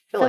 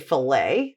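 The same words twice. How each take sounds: First: It is said with a British pronunciation. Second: It is said with an American pronunciation. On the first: "you guys in the U K saying fillet" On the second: "we say fillet"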